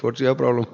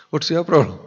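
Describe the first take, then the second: First: Said in the usual way. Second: Higher, louder, laughing "What's your problem?"; emphatic repeat. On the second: Shown as a demonstration. Preacher mocking the angry man, louder and laughing.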